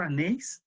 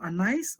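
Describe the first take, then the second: First: Anais ending like "nace"; alternative pronunciation. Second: Anais ending like "nice"; pronunciation option. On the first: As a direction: say Anais with an "ay" vowel, rhyming with "face". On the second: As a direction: say Anais with an "eye" vowel in the last syllable. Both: Shown as a demonstration. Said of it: "how do you pronounce your name".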